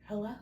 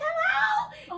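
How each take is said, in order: First: It is said in a normal voice. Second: It is said in a squeaky voice.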